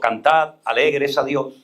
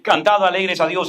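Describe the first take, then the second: First: It is read at a slower pace. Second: It is read at a faster pace. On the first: "puedo leerlo más lento" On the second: "le doy al texto, a la lectura, la velocidad que yo quiero darle"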